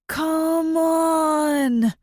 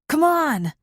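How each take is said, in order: First: It is said slowly, stretched out long. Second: It is said at a normal, quick pace.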